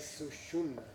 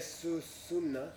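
First: The second syllable begins with an sh sound. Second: The second syllable begins with a plain s sound. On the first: The speaker calls it right. "we say su-shunna" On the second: The speaker calls it wrong. "we don't say su-sunna"

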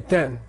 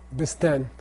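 First: The b and s sounds are silent, only ten. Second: The b and s sounds are pronounced before ten. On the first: The speaker calls it right. "the B and the S are silent. And you just say ten" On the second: The speaker calls it wrong. "It looks like bisten"

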